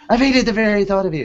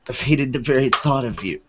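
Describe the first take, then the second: First: The line is delivered with heavy, intense emotion. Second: The line is delivered in a quiet, sad tone. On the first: The speaker calls it wrong. "you're too too emotional on that one" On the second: The speaker calls it right. "You're supposed to make it sound sad"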